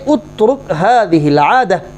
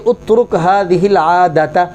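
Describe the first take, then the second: First: The last word ends with an 'h' sound. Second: The last word ends with a 'ta' sound. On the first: The speaker calls it right. "बल्कि कहेंगे" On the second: The speaker calls it wrong. "यहाँ ये नहीं कहेंगे"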